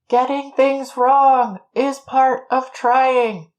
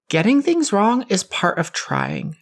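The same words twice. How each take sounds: First: It is said louder, with more force. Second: It is said at normal volume.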